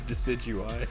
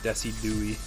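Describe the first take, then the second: First: The name ends with an eye sound. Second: The name ends with an ee sound. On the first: The speaker calls it right. "instead of Decidueye" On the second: The speaker calls it wrong. "people saying Decidui"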